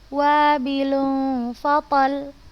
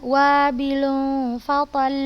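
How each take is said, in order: First: The final doubled consonant is pressed and held. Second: The final consonant flows on without being pressed. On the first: The speaker calls it right. "Kita tekan, kita tekankan" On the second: The speaker calls it wrong. "itu salah"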